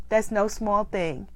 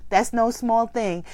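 Both takes have the same delivery.

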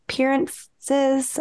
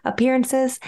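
First: "appearances" said slowly, syllables garbled as "pirances"; stumbled word. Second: "Appearances" said cleanly and fully, all syllables; corrected word. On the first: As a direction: trip over "appearances", dropping the first syllable. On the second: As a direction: say "Appearances" carefully, with every syllable. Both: Real, not acted. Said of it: "I couldn't say that word for a second".

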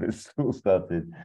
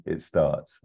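First: It's all started, drawn out slowly with a chuckle; slow, laughing read. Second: Said in the usual way. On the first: Shown as a demonstration. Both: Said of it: "instead of".

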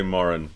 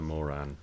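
First: Moran with stress on the first syllable; first pronunciation of Moran. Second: Moran with stress on the second syllable; second pronunciation of Moran. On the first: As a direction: say MOR-un, weak second vowel. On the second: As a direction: say muh-RAN, full final vowel. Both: Shown as a demonstration. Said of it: "I'll say it both ways".

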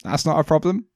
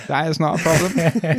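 First: Said in the usual way. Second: "That is not" spelled out word by word; emphatic repeat. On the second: Real, not acted. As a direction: give "is not" its full weight, unhurried. Repeats uncontracted, slower, for emphasis.

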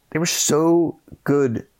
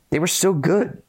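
First: Slow, stretched so good, falling; drawn-out emphasis. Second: Much higher, rising on so; bright rise, lifted high; excited praise. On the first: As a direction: lean on so and draw it out. Repeats praise slowly. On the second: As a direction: gush over it, pitch climbing on so. Praising the lead actors. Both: Real, not acted.

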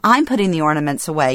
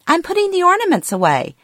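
First: Said in the usual way. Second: Mother's voice pitched much higher, a bit fast; confused elderly mother. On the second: Retold or imitated. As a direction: play the muddled mom, sure she's helping. Mom answers during ornament argument.

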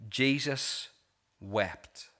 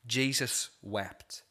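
First: Said in the usual way. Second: Slow, solemn repeat. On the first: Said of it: "It says". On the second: Shown as a demonstration. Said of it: "It's the shortest verse in the Bible".

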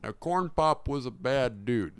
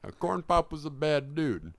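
First: Lightly voiced old president; a hint of an elderly politician's story; Joe Biden impression. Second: Put-on old president voice, found the voice; Joe Biden impression. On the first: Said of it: "Joe Biden's head". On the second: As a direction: nail the elderly politician voice. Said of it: "There it is".

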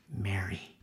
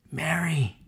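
First: Lower, soft tender name; Jesus softly saying her name; soft call. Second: Said in the usual way. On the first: Acted.

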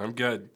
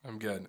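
First: Raspy, losing his voice; hoarse gravelly tone. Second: Rough hoarse voice; gravelly voice. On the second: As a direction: talk through a fading voice. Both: Real, not acted. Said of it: "You have that nice gravelly tone".

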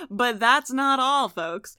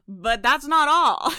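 First: Slow showy infomercial host; hammed-up pitchman, drawn out; salesman voice. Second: Slow, booming pitchman; loud cheesy sales pitch; salesman voice. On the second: Pretend. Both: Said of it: "You guys like my salesman voice?".

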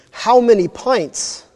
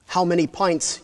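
First: Higher, louder, slow demand for an answer; interrogating demand. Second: Said in the usual way. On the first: Acted. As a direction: press him hard, each word slow and pointed. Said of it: "interrogating him". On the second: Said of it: "you ask".

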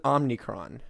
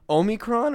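First: "Omnicron" opened as OM-nee, with an added N; Omni-style Omnicron. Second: "Omicron" opened with a long O and no N sound. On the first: Asking co-host which name is right, "Omnicron" with added N. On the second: Asking co-host which name is right, "Omicron" with long O. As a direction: say "Omicron" as OH-mi-cron. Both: Shown as a demonstration. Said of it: "is it Omni or is it".

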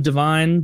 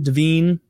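First: "Devine" rhyming with "fine"; long-I pronunciation. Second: "Devine" rhyming with "seen"; long-E pronunciation. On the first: Unsure of an actor's surname, Devine said to rhyme with "fine". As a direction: say Devine as "de-VINE". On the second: Correcting himself on an actor's surname, Devine said to rhyme with "seen". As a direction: say Devine as "de-VEEN". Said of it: "Adam Devine". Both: Real, not acted.

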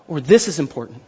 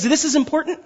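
First: "this is important" dropped low with a firm falling close; settled emphasis. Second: "this is important" lifted high with a questioning rise; questioning emphasis. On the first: Pastor gives the second reading to the congregation, low and falling. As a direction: land "this is important" low and final, a settled statement. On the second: Pastor asks the congregation how they read it, rising and questioning. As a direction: read "this is important" as an open question, pitch climbing. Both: Shown as a demonstration. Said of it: "How do you read it?".

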